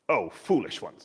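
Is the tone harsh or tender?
harsh. The words sound harsh and scolding. The listeners are being berated. The speaker calls it wrong. "it sounds quite harsh, doesn't it?"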